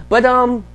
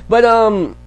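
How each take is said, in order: Both takes have the same delivery.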